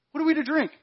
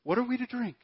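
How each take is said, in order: First: Much higher, whining repeat; the crowd's second, more insistent grumble; louder grumbling complaint. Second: Higher, whiny first ask; a grumbling complaint, pitched up; first grumbling ask of the thirsty crowd. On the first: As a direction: whine it again, pushing harder. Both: Retold or imitated. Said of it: "So the people grumbled against Moses".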